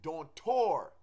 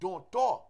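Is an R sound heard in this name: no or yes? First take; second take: yes; no. First: The name is said with an R sound. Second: The name is said without an R sound. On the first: The speaker calls it wrong. "a lot of people say Ezuli Dontor with an R" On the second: The speaker calls it right. "There is no R. It's Ezuli Dontor"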